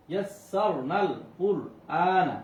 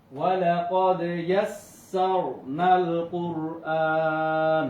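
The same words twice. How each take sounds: First: ইয়াসসারনাল কুরআনা slow in separate syllables, ending on a short না; one-alif length. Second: Loud slow chant, কুরআন held very long at the end; sung, recite it joined up, stretching the final আন; sung, elongated Quran recitation. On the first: Teacher reading before the pause rule, কুরআনা with full final vowel. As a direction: spell out কুরআনা syllable by syllable, no long hold. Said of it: "এক আলিফ দিয়ে". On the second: Teacher reciting the verse for students, slow chant with long ending. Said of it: "তিন আলিফ টানিয়ে পড়বো". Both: Shown as a demonstration.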